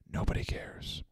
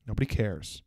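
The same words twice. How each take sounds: First: Barely voiced whisper; whispered dismissal. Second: Low, hushed deadpan aside; quiet dismissal. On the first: Answering the flight attendant's card pitch, whispered dismissal. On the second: Acted. Answering the flight attendant's card pitch, quietly dismissive. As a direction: drop right down, soft and dismissive. Muttered dismissal ending the rant.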